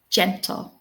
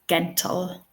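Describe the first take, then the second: First: The word begins with a soft j sound. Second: The word begins with a hard g sound. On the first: The speaker calls it right. "listen to the sound, j, j, gentle" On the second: The speaker calls it wrong. "their instinct will be to pronounce the word as gentle"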